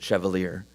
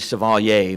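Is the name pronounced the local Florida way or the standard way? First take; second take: local Florida; standard. First: The name gets the local Florida pronunciation. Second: The name gets its standard, original pronunciation. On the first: This is how local people said it. "Floridians pronounced it Chevalier" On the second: This is the name's actual pronunciation. "it's actually Chevalier"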